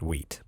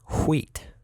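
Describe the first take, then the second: First: The name is said in a plain, normal way. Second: The name is said in a distorted, silly way. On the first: The speaker calls it right. "It's actually just wheat" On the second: The speaker calls it wrong. "I like to pronounce it funny"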